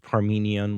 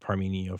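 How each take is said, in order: First: The name ends with an n sound. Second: The name ends on a vowel sound. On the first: This is the Greek form of the name. "which is the uh, Greek way" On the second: This form keeps the naming consistent. "I'm going to say Parmenio for consistency's sake"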